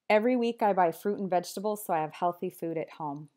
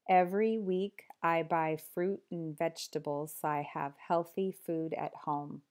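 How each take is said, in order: First: The sentence is spoken at a fast pace. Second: The sentence is spoken at a slower pace. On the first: "I'll say each one fast" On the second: "then slower"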